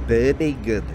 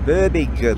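First: It is spoken in a Scottish accent. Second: It is spoken in a Birmingham accent. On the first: "And my Scottish accent" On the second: "that's my Birmingham accent, that"

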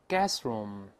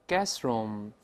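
No difference in how they are said.

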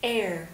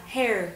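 First: The word begins straight with the vowel. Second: The word begins with a clear h sound. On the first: The speaker calls it right. "Âm H của từ này là âm câm, cho nên không được đọc ra" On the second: The speaker calls it wrong. "Mọi cách đọc như là her hay là hair đều sai"

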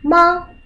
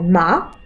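First: The pitch stays high and level. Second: The pitch rises from middle to high. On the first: "Первый ма" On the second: "второй ма"

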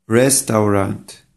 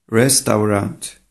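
The two takes are said the same way.

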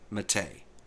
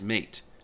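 First: It sounds unlike the common English word mate. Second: It sounds like the common English word mate. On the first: The speaker calls it right. "the correct pronunciation is Mate" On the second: The speaker calls it wrong. "Most English-speaking people will pronounce M-A-T-E as mate"

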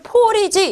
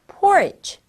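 First: The stress is on the first syllable. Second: The stress is on the second syllable. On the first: The speaker calls it right. "제일 앞에다가 딱 강조를 줘서 porridge라고 읽는 겁니다" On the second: The speaker calls it wrong. "porridge 이렇게 읽으면 안 되고요"

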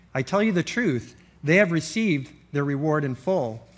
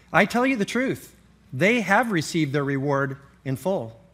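Both takes have the same delivery.

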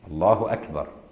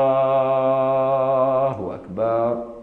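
First: It is said at a moderate, normal length. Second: It is said with vowels stretched very long.

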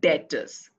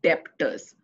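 First: The b sound is silent. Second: The b sound is pronounced. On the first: The speaker calls it right. "You pronounce it as debtors" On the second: The speaker calls it wrong. "not debtors"

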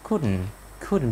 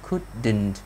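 First: The d is a stop in the throat. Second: The d sound is pronounced clearly and fully. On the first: The speaker calls it right. "cái chữ d nó chỉ là một cái stop sound ở trong cổ họng" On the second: The speaker calls it wrong. "chúng ta không đọc rõ thành couldn't như là mình đang học thời phổ thông"

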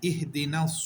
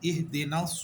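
No difference in how they are said.

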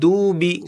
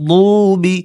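First: The first consonant is a light, plain d. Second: The first consonant is a heavy, emphatic sound. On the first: The speaker calls it wrong. "দুবি বললে তো সঠিক হলো না, দাল হলো" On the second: The speaker calls it right. "দদ মোটা"

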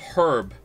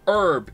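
First: The word starts with an h sound. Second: The word starts without an h sound. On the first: The speaker calls it right. "it has a fucking H in it" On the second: The speaker calls it wrong. "saying herb instead of herb"

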